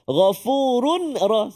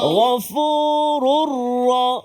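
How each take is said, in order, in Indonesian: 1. Bunyi 'n' terdengar sebelum 'ra'. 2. Langsung menyatu dengan 'ra' tanpa 'n'. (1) "jangan bunyi nun, run tu. Tak kena" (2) "Masuk terus pada Ra"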